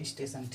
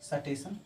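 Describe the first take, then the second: First: The word starts with a tight 'st' cluster. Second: A vowel separates the 's' from the 't'. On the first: This is the standard, pure pronunciation. "कुछ लोग शुद्ध बोलते हैं स्टेशन" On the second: This is how older people say it. "बुजुर्गों का सुनोगे तो कभी बोलेंगे सटेशन"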